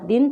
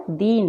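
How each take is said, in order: First: "दिन" with a short, light i. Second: "दीन" with a long, weighted ee. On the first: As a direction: keep the vowel of "दिन" brief. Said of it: "इसके विपरीत होती है". ("दिन" में छोटी इ) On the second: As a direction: stretch the vowel of "दीन". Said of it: "ज़्यादा जोर देकर होता है". ("दीन" में बड़ी ई, ज़ोर देकर) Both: Shown as a demonstration.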